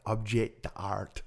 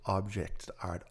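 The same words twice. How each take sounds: First: Put-on objet d'art in a French accent. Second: Said in the usual way. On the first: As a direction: say it like the French, drawn out. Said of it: "that is such a French accent".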